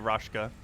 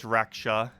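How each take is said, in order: First: The sh sound comes before the k. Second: The sh sound comes after the k. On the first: The speaker calls it wrong. "I feel like I keep saying Rashkas wrong" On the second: The speaker calls it right. "even though it's Raksha"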